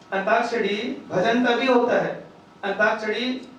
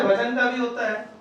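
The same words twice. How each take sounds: First: "antakshari भजन का भी होता है" said slower, weighing each word; slow down to drive it home; deliberate emphatic repeat. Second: Said in the usual way. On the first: Shown as a demonstration. Repeats the point to stress it.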